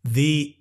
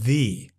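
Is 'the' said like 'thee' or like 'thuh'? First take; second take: thee; thee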